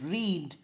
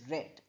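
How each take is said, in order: First: It has a long vowel, like 'reed'. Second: It has a short vowel, like 'red'. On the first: The action happens in the present. "in present tense we pronounce it as read" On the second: The action happened in the past. "in past tense we pronounce it as read"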